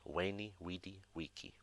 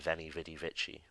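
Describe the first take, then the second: First: It is said in the classical Latin way. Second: It is said in the modern everyday way. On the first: The speaker calls it right. "Spoken like a classical Roman" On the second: The speaker calls it wrong. "you hear many people say veni vidi vici, which is also wrong"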